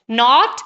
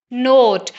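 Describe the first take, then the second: First: नॉट with a short open o; short vowel. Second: नोट with a long drawn-out o; long vowel. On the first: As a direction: keep नॉट brief. (नॉट में छोटा ऑ) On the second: (नोट में लंबा ओ खींचकर) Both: Shown as a demonstration. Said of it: "ये minimal pairs इस तरह के हैं".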